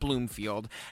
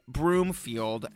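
First: The name begins with a 'bl' sound. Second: The name begins with a 'br' sound. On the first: The speaker calls it wrong. "not Bloomfield" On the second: The speaker calls it right. "I'm now aware that Nick's last name is Broomfield"

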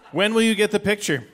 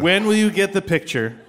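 First: It is read flat, without melody. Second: It is read with more expression.

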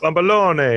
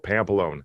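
First: It is said with a New York accent. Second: It is said with a Chicago accent.

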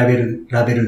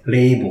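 First: It is said as Japanese katakana, 'ra-be-ru'. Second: It is said the American way, like 'ray-bo'. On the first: The speaker calls it wrong. "そのまま読んだらラベルですけども" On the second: The speaker calls it right. "レイボーなんですね"

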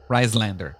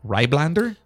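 First: The middle consonant is pronounced as an s. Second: The middle consonant is pronounced as a b. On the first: The speaker calls it right. "pronounced like a double S" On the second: The speaker calls it wrong. "the capital B like that is actually pronounced like a double S"

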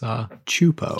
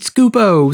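First: The name begins with a 'ch' sound. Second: The name begins with an 'sk' sound. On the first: The speaker calls it right. "to learn that it's Chupo" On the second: The speaker calls it wrong. "did you ever sit there and go"

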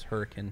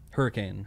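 First: The name is said the way locals say it. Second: The name is said the standard, common way.

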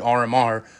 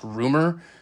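First: The name is said as three separate letters. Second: The name is said as one two-syllable word. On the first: The speaker calls it wrong. "so I've been calling the dude [name]" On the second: The speaker calls it right. "it should be pronounced Rumor"

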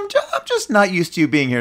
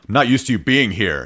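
First: The tone is warm and affectionate. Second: The tone is curt and annoyed. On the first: Having the partner around is sweet. "you just look for the tone. It's like, oh, that's cute" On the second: The partner's presence is an intrusion. "It's like, well, wait, I mean, but aren't you happy that I'm here"

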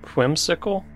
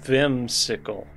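First: The name begins with a W sound. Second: The name begins with a V sound. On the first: The speaker calls it wrong. "No. You have to pronounce the V" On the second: The speaker calls it right. "Ja, very good"

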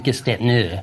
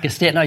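First: The R is rolled, American style, slowly. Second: The R is dropped, said quickly.

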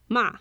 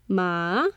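First: The pitch falls sharply from high to low. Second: The pitch dips low, then rises.

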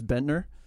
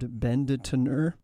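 First: The name is said fast, with syllables dropped. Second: The name is said at normal speed, fully.

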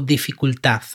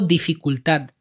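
First: The word ends with a soft d sound. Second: The word ends with a clear t sound. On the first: It reflects the standard European Spanish pronunciation. "Que es como se tendría que pronunciar en español, digamos, normativo" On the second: It reflects the way it is said in Catalonia. "Como una T al final"

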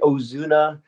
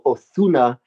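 First: The z is said as a plain s. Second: The z is said with a lisp, like th.

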